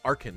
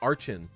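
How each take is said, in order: First: The consonant after 'ar' is a 'k' sound. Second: The consonant after 'ar' is a 'ch' sound. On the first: The speaker calls it right. "it's Arkin, like archaeology" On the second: The speaker calls it wrong. "I always called it Archin"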